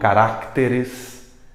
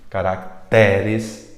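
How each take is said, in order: First: The stress is on the third-to-last syllable. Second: The stress is on the second-to-last syllable. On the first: The speaker calls it wrong. "e não" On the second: The speaker calls it right. "A voz paroxítica tem mais caracteres"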